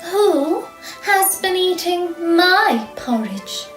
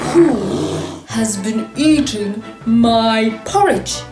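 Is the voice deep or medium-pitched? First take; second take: medium; deep. First: A medium-pitched, middle-sized voice. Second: A deep, big, growling voice. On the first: A middle-sized creature is speaking. "said the Mama Bear in her middle-sized voice" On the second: A very large creature is speaking. "he growled in his great big voice"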